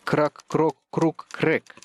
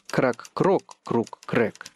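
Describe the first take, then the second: First: The stress falls on the fourth syllable, крэк. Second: The stress falls on the second syllable, крок.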